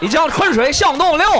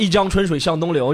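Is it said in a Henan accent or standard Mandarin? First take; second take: Henan accent; standard Mandarin. First: It is said in a Henan accent, changed voice. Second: It is said in standard Mandarin.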